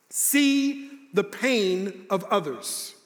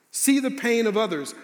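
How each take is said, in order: First: Deliberate slow statement; slow emphatic. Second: Said in the usual way. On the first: Shown as a demonstration. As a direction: lay each word down slowly.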